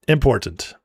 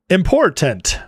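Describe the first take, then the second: First: Said in the usual way. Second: "Important" with a full "tent" ending, pitched up then falling; mock-careful "Important", ending in a clear "tent"; over-enunciated important. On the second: Shown as a demonstration. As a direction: pronounce every syllable of "Important", crisp T's. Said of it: "Should I say important?".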